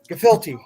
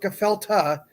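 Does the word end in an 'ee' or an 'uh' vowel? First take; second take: ee; uh. First: The last vowel is an 'ee' sound. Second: The last vowel is an 'uh' sound. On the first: The speaker calls it right. "there's an E at the end" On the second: The speaker calls it wrong. "It's not Gefelta"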